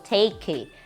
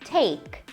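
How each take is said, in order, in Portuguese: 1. O som do K final é pesado. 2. O som do K final é muito leve. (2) "com um K bem levinho no final"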